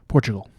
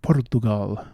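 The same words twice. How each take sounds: First: It is said in the speaker's normal accent. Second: It is said in an exaggerated put-on accent.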